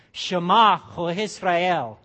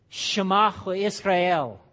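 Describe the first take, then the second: First: "Shema Ho Israel" very slow and loud, ceremonial, stress on Shema; impressive Hebrew. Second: "Shema Ho Israel" slow and louder, SHE-ma stressed; Hebrew pronunciation. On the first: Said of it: "You can impress your neighbors". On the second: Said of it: "in the Hebrew". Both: Shown as a demonstration.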